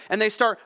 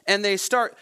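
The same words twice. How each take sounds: The two takes are said the same way.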